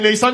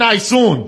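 First: The second vowel is an open 'aa' sound. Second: The second vowel is a rounded 'oo' sound. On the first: This is the standard way, which northerners do not use. "میگن نه به نیسان" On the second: This is how people from the north say it. "شمالیا چی میگن؟ ... میگن نیسون"

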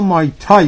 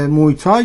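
First: The first syllable sounds like 'my'. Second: The first syllable sounds like 'moy'. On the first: The speaker calls it right. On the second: The speaker calls it wrong.

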